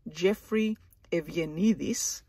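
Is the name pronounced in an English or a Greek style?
Greek. The name is said with Greek pronunciation.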